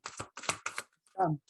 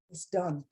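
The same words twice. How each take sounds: First: Whispered. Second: Said in the usual way. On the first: Shown as a demonstration.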